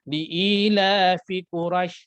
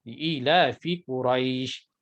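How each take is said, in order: First: The last syllable is cut short without lengthening. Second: The last syllable is held for at least two beats. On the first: The speaker calls it wrong. "Tidak boleh baca dengan" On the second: The speaker calls it right. "paling kurang eh dua harakat"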